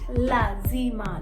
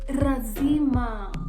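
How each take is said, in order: First: The word begins with an L sound. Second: The word begins with an R sound. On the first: The speaker calls it right. "How did you hear me pronounce it?" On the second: The speaker calls it wrong. "Tanzanians, a, a lot will say razima"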